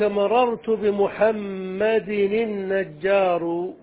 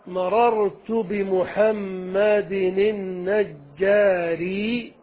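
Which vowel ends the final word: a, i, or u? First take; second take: u; i. First: The last word ends with a u vowel. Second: The last word ends with an i vowel. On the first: The description is cut off as a new sentence. "على القطع" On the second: The description follows the noun as one sentence. "على الإتباع"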